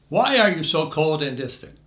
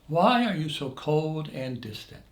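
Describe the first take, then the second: First: It is said in an accusing tone. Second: It is said in a gentler tone.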